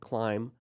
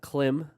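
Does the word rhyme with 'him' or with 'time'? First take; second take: time; him. First: The vowel is long, rhyming with time. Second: The vowel is short, rhyming with him. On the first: The speaker calls it right. "It's climb without the B" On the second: The speaker calls it wrong. "It's not clim"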